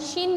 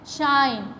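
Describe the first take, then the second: First: The vowel is short, like 'ih'. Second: The vowel is long, like 'eye'. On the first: The speaker calls it wrong. "ये short vowel की sound देता है और ये गलत pronunciation हो जाती है" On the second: The speaker calls it right. "आपने लॉन्ग वावल में प्रोनाउंस करना है"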